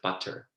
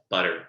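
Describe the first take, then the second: First: The middle consonant is a crisp T. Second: The middle consonant sounds like a soft D.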